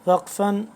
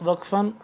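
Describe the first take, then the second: The two takes are said the same way.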